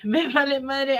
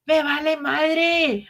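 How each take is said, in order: First: Me vale madre tossed off with a laugh; laughing shrug-off. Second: Me vale madre said slowly, each word leaned on; emphatic shrug-off. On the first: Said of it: "repeats the phrase laughing". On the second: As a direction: drag out Me vale madre like you mean it. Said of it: "repeats the phrase emphatically". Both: Shown as a demonstration.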